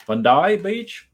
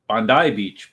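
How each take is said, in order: First: "Bondi" in a hammed-up Australian accent, pitched higher, slow and laughing; laughing stab at an Australian accent on "Bondi Beach"; mock Australian accent. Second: Said in the usual way. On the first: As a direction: play the Aussie, drawing out "Bondi Beach" with a laugh. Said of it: "there you go, with my Australian accent". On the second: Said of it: "so it's pronounced Bondi".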